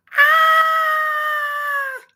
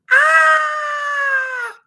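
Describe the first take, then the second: First: High startled "Ah!"; kid's shriek. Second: Sudden high shrieking "Ah!"; kid's scream. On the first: Boy insisting to mom it wasn't a scream, shrieking. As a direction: show it, full high shriek. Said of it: "It wasn't a scream". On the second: Boy reenacting to mom how he screamed and ran. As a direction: scream as if scared of a face. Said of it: "Jamie, screaming?". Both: Retold or imitated.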